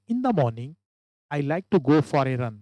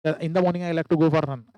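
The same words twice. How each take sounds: First: Slow, with a break after morning; right way, comma pause after morning. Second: No break after morning; wrong way, the way many students read it; run together. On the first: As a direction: stop briefly at the comma. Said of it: "ऐसा पढ़ना". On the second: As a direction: rush through without stopping. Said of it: "ऐसा बहुत सारे student पढ़ रहे हैं". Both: Shown as a demonstration.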